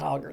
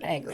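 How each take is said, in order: First: The first vowel sounds like the vowel in 'hot'. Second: The first vowel sounds like the vowel in 'cat'. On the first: The speaker calls it wrong. "not Hoggard" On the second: The speaker calls it right.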